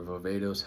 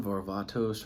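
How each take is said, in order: First: Varvatos with an "ay" middle; alternative pronunciation. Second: Varvatos with an open "ah" middle; first pronunciation. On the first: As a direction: say Varvatos as var-VAY-tos. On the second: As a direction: say Varvatos as var-VAH-tos. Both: Shown as a demonstration. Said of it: "however you wanna say it".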